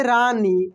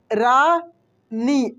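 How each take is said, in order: First: Said in the usual way. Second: रानी stretched with a long ई; slow teacher's demo of रानी; drawn-out demo. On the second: Shown as a demonstration. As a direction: draw out रानी slowly, leaning on the long ई. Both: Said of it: "ऐसे रानी".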